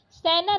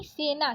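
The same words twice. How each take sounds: First: सेना said "sai-na", open ai vowel; wrong vowel. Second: Said in the usual way. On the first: Shown as a demonstration. Teacher repeating the correction, सेना with ai vowel. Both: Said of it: "सेना नहीं".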